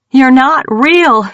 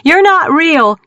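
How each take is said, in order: First: Loud, high, slow shout. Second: High, loud shout. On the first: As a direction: yell it in desperation. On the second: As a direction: scream it again. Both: A narrator's reading. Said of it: "Mackenzie shouted".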